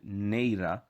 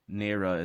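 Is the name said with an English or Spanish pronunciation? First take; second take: Spanish; English. First: The name is said with a Spanish pronunciation. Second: The name is said with an English pronunciation. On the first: "That's that's how you pronounce it, Neira in Spanish" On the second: "Neira is fine too"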